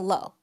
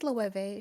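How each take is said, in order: First: The name is said without a v sound. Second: The name is said with a v sound. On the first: The speaker calls it wrong. "Cause I keep saying low" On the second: The speaker calls it right. "I know there's no V in it. I'm sorry, but that's how you pronounce it"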